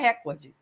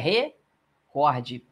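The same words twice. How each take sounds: First: The stress is on the first syllable. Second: The stress is on the second syllable. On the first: The speaker calls it wrong. "Não tem acento a palavra recorde, porque não é recorde" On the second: The speaker calls it right. "É recorde. O cor é o mais forte"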